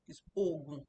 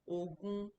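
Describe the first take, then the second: First: The pitch rises then falls. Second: The pitch stays level throughout. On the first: It means drug. "So it's like goes up, the O as the up and the U as the down" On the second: It means twenty. "twenty is ogun ... So they are both on the horizontal"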